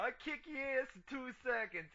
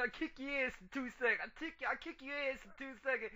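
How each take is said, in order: First: Higher hammed-up New York tough talk; mock New York accent. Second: Higher mock New York tough guy; mock New York accent. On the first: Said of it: "he puts the accent on". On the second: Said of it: "like a New York accent?".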